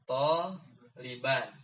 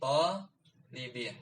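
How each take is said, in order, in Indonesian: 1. Kata ini berakhir dengan vokal a diikuti n. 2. Kata ini berakhir dengan vokal i diikuti n. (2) "jadi kasroh"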